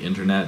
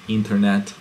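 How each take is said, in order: First: It is said with an English accent. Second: It is said with a Hebrew accent. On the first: The speaker calls it wrong. "it would be internet as well if it pronounced that way" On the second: The speaker calls it right. "but it's internet"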